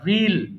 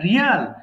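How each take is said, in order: First: It is said like 'reel', one drawn-out vowel. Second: It is said like 'rial', with two vowels. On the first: The speaker calls it right. "এটা কিন্তু হবে রিল, রিল একটু টানে" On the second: The speaker calls it wrong. "এটা আমরা উচ্চারণ করি রিয়াল বলি"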